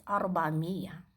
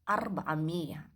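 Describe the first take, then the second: No difference in how they are said.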